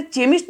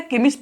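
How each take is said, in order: First: केमिस्ट said with a ch, like chemist; केमिस्ट mispronounced with an opening च sound; wrong ch sound. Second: केमिस्ट said with a hard क at the start; केमिस्ट with a clear opening क sound; correct k sound. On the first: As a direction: say केमिस्ट with च at the start, as the wrong reading. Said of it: "इसको मैंने केमिस्ट नहीं पढ़ा". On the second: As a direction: say केमिस्ट with क, as the right reading. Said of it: "इसको मैंने केमिस्ट पढ़ा". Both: Shown as a demonstration.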